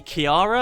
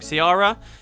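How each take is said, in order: First: The name begins with a K sound. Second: The name begins with an S sound. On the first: "It could be Kiara, I guess" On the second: "it's a C, right? So I'm guessing that's an S sound"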